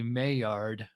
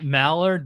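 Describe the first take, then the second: First: The word is said 'my-yard', starting 'my'. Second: The word is said like 'mallard', starting 'mal'. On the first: The speaker calls it right. "it's actually Maillard" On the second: The speaker calls it wrong. "everybody pronounces it Mallard"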